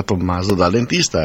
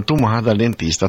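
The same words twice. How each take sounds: First: Said in the usual way. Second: The title in Piedmontese dialect, Tomà said tu-MA; Tomà pronounced the Piedmontese way. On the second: Shown as a demonstration. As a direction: say "Tomà dal dentista" with the dialect name Tomà, stress on the last syllable.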